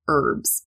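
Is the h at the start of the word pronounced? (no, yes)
no. The word starts with a vowel, no h sound. This is the American way of saying it. "but in American English, we say"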